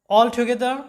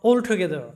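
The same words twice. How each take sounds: First: All together with an open "aw" in all; American "all together", open vowel; American accent. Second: All together with a rounded "o" in all; British "all together", rounded vowel; British accent. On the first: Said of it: "এরপর দেখো যে all together". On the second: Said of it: "অথবা". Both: Shown as a demonstration.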